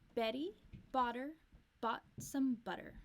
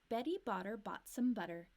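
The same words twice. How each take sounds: First: It is said at a slower, careful pace. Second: It is said at a faster pace.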